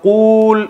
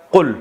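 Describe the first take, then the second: First: قول stretched into a high, long qooool; exaggeratedly long. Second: قل cut to a short qul; shortened. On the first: Teacher shows why the word is too long, exaggerated stretch. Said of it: "اتنا لمبا ہے". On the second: Teacher shows how Arabs shortened the word, short vowel. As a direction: say قل with a quick, short u. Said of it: "قول کو short کر کے". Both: Shown as a demonstration.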